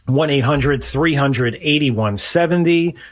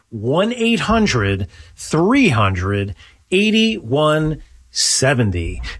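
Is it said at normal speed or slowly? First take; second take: normal speed; slowly. First: It is said at normal speed. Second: It is said slowly.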